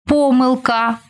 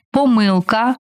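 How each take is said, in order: First: ПОмилка, stressed on the first syllable. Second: ПоМИлка, stressed on the second syllable. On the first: Teacher showing variant stresses to student, first-syllable stress on помилка. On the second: Teacher showing variant stresses to student, second-syllable stress on помилка. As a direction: lean on МИ in помилка. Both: Shown as a demonstration. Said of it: "Такий наголос ще називають варіантним".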